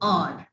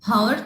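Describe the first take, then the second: First: It starts directly with a vowel sound. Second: An h sound is heard at the start. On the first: The speaker calls it right. "It's और। We take start from a vowel sound" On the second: The speaker calls it wrong. "तो हम इसको हावर तो pronounce नहीं करते ना"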